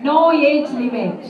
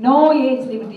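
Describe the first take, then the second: First: Slow, stretched announcement; drawn-out, louder call. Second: Said in the usual way. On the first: Shown as a demonstration. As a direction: stretch No age limit out slowly and loudly.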